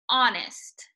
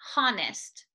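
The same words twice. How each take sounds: First: The word begins with no h sound. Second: The word begins with a breathy h sound. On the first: The speaker calls it right. "you should not feel any air coming out of your mouth" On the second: The speaker calls it wrong. "Make sure you are not pronouncing that H. ... it doesn't need to be honest. There's none of that"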